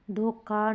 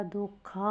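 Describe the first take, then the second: First: धोखा with a hard "k"; wrong, unaspirated. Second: धोखा slow, with breathy "kh"; correct, aspirated. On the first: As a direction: say धोखा as "dhoka", no puff. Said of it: "नहीं होता". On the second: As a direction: puff out the "kha" of धोखा. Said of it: "होता है". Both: Shown as a demonstration.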